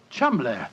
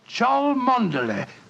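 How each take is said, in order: First: It is said short, as two syllables. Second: It is said syllable by syllable, as spelt. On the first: This is how the name is really pronounced. "the name Chumley is in no way pronounced the way it is spelt" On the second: This is how someone reading the spelling would say it.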